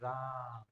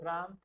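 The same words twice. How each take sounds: First: The vowel in 'Ram' is drawn out very long. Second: The vowel in 'Ram' has normal length. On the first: The name is being chanted in devotion. "राम नाम का जप करता है तो ऐसे बोलता है" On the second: It is just an ordinary word. "राम एक साधारण शब्द हो गया"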